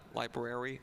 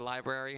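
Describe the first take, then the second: First: It is said fully, with more tongue movement. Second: It is said loosely, with little tongue movement. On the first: The speaker calls it right. "and not library" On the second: The speaker calls it wrong. "I always said library"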